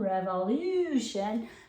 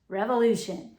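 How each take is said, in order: First: Said carefully with a clear 'you' sound. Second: Said fast with the middle slurred to 'ooh'. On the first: "It's really revolution" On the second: "But when we say it fast"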